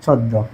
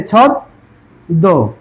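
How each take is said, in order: First: Said in the usual way. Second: ছদ্ম stretched out very slowly with a doubled দ; slow pronunciation demo. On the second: Shown as a demonstration. Teacher showing class the doubled sound in ছদ্ম, very slowly. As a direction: draw out ছদ্ম as ছদ্দো, slowly. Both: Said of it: "দ্বিতীয় হবে".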